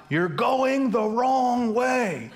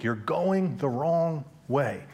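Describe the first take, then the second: First: High, slow stretched-out yell; retold shout. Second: Slow, deliberate and even; slow, echoing line. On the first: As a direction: call it long across the lanes. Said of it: "and they shout". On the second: Shown as a demonstration. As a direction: let it linger like a memory. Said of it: "going through my head all week".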